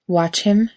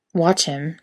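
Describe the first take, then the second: First: "Watch him?" repeated with a rise on him; repeated question, rising. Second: Puzzled, bemused query; bemused question. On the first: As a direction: echo the words back, lifting at the end. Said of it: "Castiel repeated". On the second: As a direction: ask it mildly puzzled. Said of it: "Castiel asked, bemused". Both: A narrator's reading.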